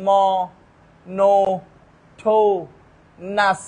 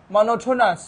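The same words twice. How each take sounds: First: "ম-, নো-, ঠো-, নাস" as four loud separate beats; syllable by syllable. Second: Said in the usual way. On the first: Shown as a demonstration. Teacher easing a hard word, "ম-, নো-, ঠো-, নাস" spaced out. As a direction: leave a pause after each piece of "monotonous". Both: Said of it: "কেউ যদি syllable পারে".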